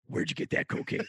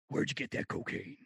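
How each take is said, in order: First: It is said in a Batman voice. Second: It is said in a McBain voice.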